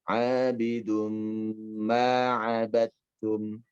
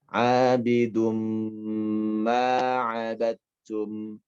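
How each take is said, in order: The two takes are said the same way.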